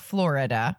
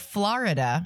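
First: The middle vowel sounds like an 'i'. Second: The middle vowel sounds like an 'a'. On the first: The speaker calls it wrong. "not Florida" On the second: The speaker calls it right. "Like with an A?"

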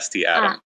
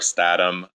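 First: The letters S and T are spelled out. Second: It is said as one blended word. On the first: "I personally just say ST Atom" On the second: "some people in Stride say Stosmo or Statum"

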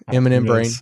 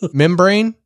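First: It is said as the letters M M, then brain. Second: It is said as the single word membrane. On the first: The speaker calls it right. "Oh, was it supposed to be? Yeah, okay" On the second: The speaker calls it wrong. "I was thinking like membrane"

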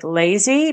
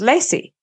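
First: The middle consonant is a buzzing z. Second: The middle consonant is a hissing s.

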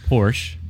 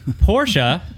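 First: The name is said the American way. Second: The name is said a non-American way.

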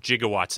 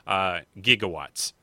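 First: The word begins with a soft J sound. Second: The word begins with a hard G sound.

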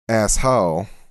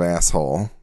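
First: The word is said with an affected pronunciation. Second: The word is said with a plain pronunciation. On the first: "there's just an affectation to it where it comes out and I say" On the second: "instead of"

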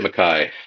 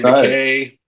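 First: The name is pronounced the Scottish way. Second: The name is pronounced the American way. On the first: "The Scottish they say McKay" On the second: "we Americans say McKay"

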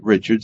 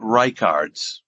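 First: The middle consonant is a 'ch' sound. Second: The middle consonant is a 'k' sound. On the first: The speaker calls it wrong. "it does pronounce it Richards, even though it doesn't have an H" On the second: The speaker calls it right. "it's pronounced Reichards"

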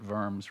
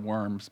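First: The name begins with a V sound. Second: The name begins with a W sound. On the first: "but we pronounce it Worms" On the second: "spelled Worms"

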